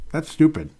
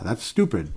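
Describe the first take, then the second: First: That's stupid, pushed up and louder; louder, higher repeat. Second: Said in the usual way. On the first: Real, not acted. Repeating his scorn for the losing mindset, louder. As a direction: hammer home the scorn.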